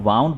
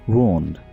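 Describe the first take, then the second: First: The vowel sounds like 'ow'. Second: The vowel sounds like 'oo'. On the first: The speaker calls it wrong. "इसको वाउंड बोला जा रहा होता है, जो कि बिल्कुल गलत है" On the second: The speaker calls it right.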